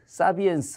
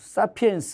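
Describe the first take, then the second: First: The middle consonant is a b sound. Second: The middle consonant is a p sound. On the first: "사비엔스 뭐 이렇게도 하" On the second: "사피엔스 뭐 이런 거 할 때"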